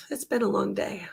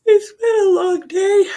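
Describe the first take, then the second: First: Said in the usual way. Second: High, loud and slow tired wail; drawn-out exhausted whine after a long reading; weary whine. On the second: Real, not acted. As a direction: moan it out like the day has worn you down.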